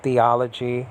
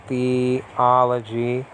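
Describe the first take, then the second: First: Said in the usual way. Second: THEOLOGY slowly as "thee ... ology"; split into parts. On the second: Shown as a demonstration. Teacher showing the two roots inside, split into parts. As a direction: break THEOLOGY apart, drawn out slowly.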